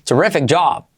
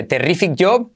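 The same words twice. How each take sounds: First: "terrific job" as "tuh-REF-ek jahb"; "terrific job" with English R and "jab"-like "job"; corrected English pronunciation. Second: "terrific job" as "te-RI-fik yob", clear I vowels; first "terrific job" with "ree-feek" and round O; Spanish-style mispronunciation. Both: Shown as a demonstration. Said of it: "Fijaos la diferencia entre".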